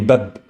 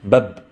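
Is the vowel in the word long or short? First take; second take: short; short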